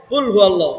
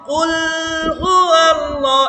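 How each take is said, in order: First: কুল হুয়াল্লাহ said quickly, the tongue not staying on the lam; কুল হুয়াল্লাহ with the lam released fast; tongue not held on lam. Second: কুল হুয়াল্লাহ with the tongue kept pressed on the lam, slow and drawn out; কুল হুয়াল্লাহ, lam held with the tongue. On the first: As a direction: let the tongue leave the ল of হুয়াল্লাহ at once. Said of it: "আরেকটা বলছি". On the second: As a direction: hold the tongue on the ল of হুয়াল্লাহ, stretch it slowly. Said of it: "একবার লামটা আমি জিব্বাটা লাগায় রাখছি". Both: Shown as a demonstration.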